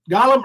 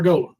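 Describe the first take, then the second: First: "Golem" with an open ah up front; short-o pronunciation. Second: "Golem" with a long o, like goal; long-o pronunciation. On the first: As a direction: say "Golem" as GAH-lum. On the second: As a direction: say "Golem" as GOH-lum. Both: Shown as a demonstration. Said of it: "what is it".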